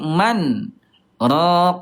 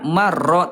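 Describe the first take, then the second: First: A short stop separates the n from the r. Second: The n merges into the r without a break. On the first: The speaker calls it right. "tapi man raq" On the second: The speaker calls it wrong. "bukan idgham bila gunnah"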